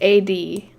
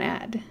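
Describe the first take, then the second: First: It is spelled out as two separate letters. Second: It is said as a single one-syllable word. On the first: The speaker calls it right. "I'm assuming it's A D" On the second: The speaker calls it wrong. "not ad"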